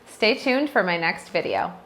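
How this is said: The pitch falls at the end. It sounds confident and authoritative. The speaker calls it right. "with a lower tone at the end"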